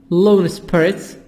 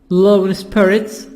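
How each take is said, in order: The two takes are said the same way.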